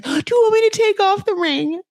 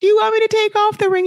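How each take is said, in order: First: High, hurt mock plea, a touch of imitation; imitating a distraught wife's high question; upset plea. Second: Hammed-up panicked repeat of the question; frantic repeat. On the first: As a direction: lightly play the wounded wife asking. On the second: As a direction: push the repeat into frantic imitation. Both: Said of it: "like, so upset".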